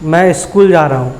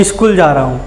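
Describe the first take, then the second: First: स्कूल with a clean sk cluster and no vowel before the s; correct pronunciation. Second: स्कूल said as इस्कूल, an extra i slipped in before the s; regional mispronunciation. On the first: Teacher showing the right way to say स्कूल, clean cluster. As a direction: say स्कूल crisply as s-k-ool, nothing added. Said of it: "जबकि स्कूल". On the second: Child telling the teacher he goes to school, saying इस्कूल. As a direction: say इस्कूल जा रहा हूँ with a vowel in front of स्कूल. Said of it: "वह क्षेत्रीय दोष भी होता है और गलत उच्चारण". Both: Shown as a demonstration.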